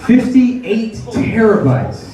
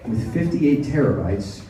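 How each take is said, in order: First: Slow emphatic. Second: Said in the usual way. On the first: Shown as a demonstration. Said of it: "repeated for emphasis". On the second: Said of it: "first mention".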